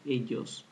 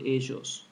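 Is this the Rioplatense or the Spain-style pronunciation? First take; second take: Spain-style; Rioplatense. First: The double L is said the Spain way. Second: The double L is said the Rioplatense way. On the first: "While in Spain, and most other Latin American countries, they pronounce it ellos" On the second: "In my country, Uruguay, as well as in Argentina, we pronounce it ellos"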